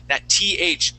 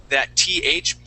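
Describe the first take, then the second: The two takes are said the same way.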